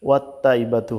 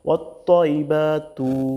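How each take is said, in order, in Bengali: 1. t ধ্বনিটি সাধারণ ও হালকা। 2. t ধ্বনিটি ভারী ও জোরালো (emphatic)। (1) "হতে পারে তা দিয়া, কিন্তু এখানে তা দিয়ে বলা যাবে না" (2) "বলতে হবে তোয়া দিয়া"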